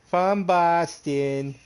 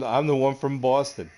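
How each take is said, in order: First: Slow, high mock Boston drawl of From Boston; teasing the idea he sounds like he's from Boston; mock Boston accent. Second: Said in the usual way. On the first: Shown as a demonstration. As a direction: stretch out "From Boston" in a hammed-up Boston accent. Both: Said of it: "I don't have a Boston accent".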